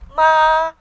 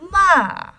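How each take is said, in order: First: The pitch stays high and level. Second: The pitch falls sharply from high to low. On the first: "first tone, high and steady" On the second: "a straight fall from the top of your register to the bottom"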